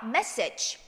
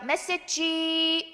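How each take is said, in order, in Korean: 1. 마지막 소리는 울리지 않고 공기만 냅니다. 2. 마지막 소리는 성대를 울려서 냅니다.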